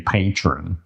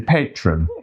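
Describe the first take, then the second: First: It is said in an American accent. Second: It is said in an English accent. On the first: "if you're American, you would say" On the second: "if you're English, you'd say"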